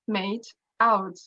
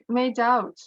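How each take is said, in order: First: The two words are said separately and carefully. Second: The final consonant joins onto the next word. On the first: "This is how it is pronounced in isolation by a careful speaker" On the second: "if we pronounce it in connected speech, it will sound uh, drastically different"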